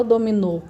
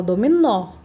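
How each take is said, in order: First: Dominô with a closed final ô; wrong closed vowel. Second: Dominó with a stressed open ó; open final vowel. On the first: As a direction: mispronounce the last O of dominô as closed. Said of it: "A gente não fala dominô". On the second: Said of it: "a gente fala dominó". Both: Shown as a demonstration.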